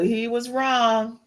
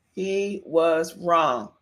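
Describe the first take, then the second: First: Said in the usual way. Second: "He was wrong" slow, word by word, lower; deliberate emphasis. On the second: Shown as a demonstration. Host repeats the verdict on [name] for her listeners, deliberate emphasis. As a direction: stretch out "was" and land heavily on "wrong".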